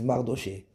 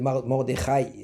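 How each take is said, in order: First: The middle consonant is a soft sh. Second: The middle consonant is a throaty kh. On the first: The speaker calls it wrong. "ils disent Mardoché" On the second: The speaker calls it right. "ça c'est un chaf"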